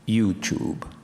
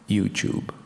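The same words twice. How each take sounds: No difference in how they are said.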